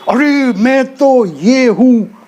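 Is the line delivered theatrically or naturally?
theatrically. It is said in an exaggerated, theatrical way.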